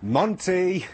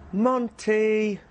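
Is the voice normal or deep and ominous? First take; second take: deep and ominous; normal. First: It is said in a deep, ominous voice. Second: It is said in a normal voice.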